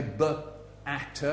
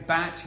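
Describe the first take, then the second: First: "b at" split, with a schwa after the b; wrong phonics demo. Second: "bat" said whole as one sound; phonics demo. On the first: Showing children the wrong way, "b at" split. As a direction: break "b at" apart, fading on "at". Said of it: "you don't say". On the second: Showing children how to sound out, "bat" whole. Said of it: "If you say". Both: Shown as a demonstration.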